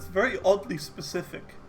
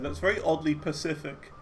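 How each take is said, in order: First: The last word starts with an s sound. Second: The last word starts with a p sound. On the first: The speaker calls it right. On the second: The speaker calls it wrong.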